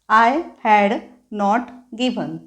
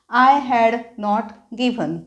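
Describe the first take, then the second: Both takes have the same delivery.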